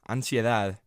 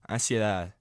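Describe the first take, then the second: First: The n before the s is fully pronounced. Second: The n is dropped and the vowel is nasalized.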